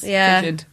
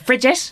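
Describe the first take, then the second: First: The word is said in a standard accent. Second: The word is said in a Cork accent. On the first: This is the actual word. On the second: This is how it was said locally.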